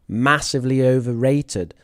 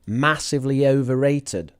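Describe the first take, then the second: First: Overrated is stressed on its first syllable 'o'. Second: Overrated is stressed on its first syllable 'o'.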